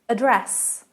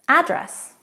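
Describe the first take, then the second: First: It has the British stress pattern. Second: It has the American stress pattern. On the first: "Sounds like a dress in British English" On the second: "address in American"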